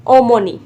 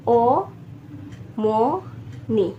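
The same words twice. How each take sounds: First: Said in the usual way. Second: ओमोनी very slowly as ओ, मो, नी; teacher drawing ओमोनी out in three pieces; syllable by syllable. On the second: Shown as a demonstration. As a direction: pause between each syllable of ओमोनी. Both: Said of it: "तीन syllable बना लेने हैं".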